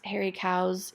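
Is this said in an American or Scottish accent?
American. It is said in an American accent. "in American English"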